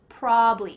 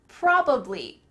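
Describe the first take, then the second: First: The middle syllable is dropped entirely. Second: All three syllables are pronounced fully.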